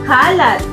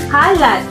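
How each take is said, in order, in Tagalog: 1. Ang diin ay nasa unang pantig. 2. Ang diin ay nasa unang pantig.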